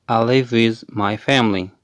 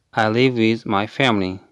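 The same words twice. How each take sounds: The two takes are said the same way.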